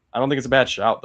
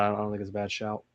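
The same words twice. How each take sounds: First: "bad" hit louder with falling tune; stress on bad. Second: Fast and softer, "bad" unstressed; quick throwaway. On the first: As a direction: lean on "bad shout". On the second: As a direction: toss it off quickly. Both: Shown as a demonstration. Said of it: "just say it like that".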